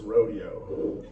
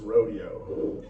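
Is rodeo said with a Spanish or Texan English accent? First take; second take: Texan English; Texan English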